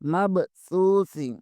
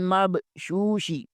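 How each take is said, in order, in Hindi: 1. शब्द को th ध्वनि के साथ बोला जाता है। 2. शब्द को sh ध्वनि के साथ बोला जाता है। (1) "असल लफ्ज सा है। सा को अदा करें, जबान को ऊँटों दांतों के नीचे" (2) "बाद लोग शीन ... पढ़ते हैं, ये दोनों गलत हैं"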